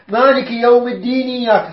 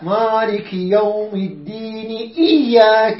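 First: The glottal stop before iyyaka is dropped. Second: The glottal stop before iyyaka is pronounced. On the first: The speaker calls it wrong. "خطأ" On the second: The speaker calls it right. "يحقق ليها الهمزة"

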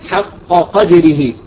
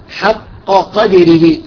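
No difference in how they are said.

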